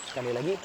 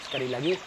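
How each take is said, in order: No difference in how they are said.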